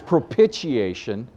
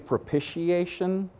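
First: It is not pronounced like the word initiation. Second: It is pronounced like the word initiation. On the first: The speaker calls it right. "It's propitiation" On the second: The speaker calls it wrong. "pronounce it like you would the word initiation"

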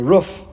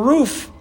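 First: It is said with a Midwestern pronunciation. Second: It is said with a non-Midwestern pronunciation.

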